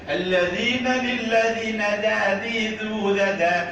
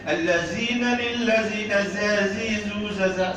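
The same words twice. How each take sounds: First: The consonants use the tongue tip at teeth. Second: The consonants are buzzing z sounds. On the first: The speaker calls it right. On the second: The speaker calls it wrong. "salah, reject"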